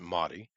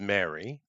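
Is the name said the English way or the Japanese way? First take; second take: Japanese; English. First: The name is said with Japanese sounds. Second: The name is said with English sounds.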